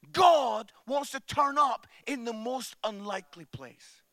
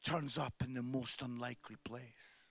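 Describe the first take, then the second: First: Proclaimed refrain. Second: Much softer, a hushed whisper of the refrain. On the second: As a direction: whisper it like a secret. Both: Real, not acted.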